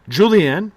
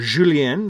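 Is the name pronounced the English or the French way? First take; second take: English; French. First: The name is said with English pronunciation. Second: The name is said with French pronunciation.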